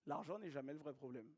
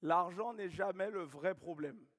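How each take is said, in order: First: Softer, lower echo of "L'argent n'est jamais le vrai problème"; quiet repeat. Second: Slow, louder, every word weighted: "L'argent n'est jamais le vrai problème"; emphatic statement. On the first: Coach repeating the rule to the room, softly. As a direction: let it sink in, softly and lower. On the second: Coach stating the key rule to his team, slow and emphatic. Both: Shown as a demonstration. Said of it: "repeats it".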